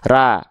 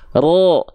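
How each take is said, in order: First: Thin, with a clear open 'a' vowel. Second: Thick, with the vowel coloured toward 'o'. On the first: The speaker calls it wrong. "Kalau pangkal lidah kita gak naik ... dilafalkan pasti vokal A" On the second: The speaker calls it right. "sekarang angkat pangkal lidahnya"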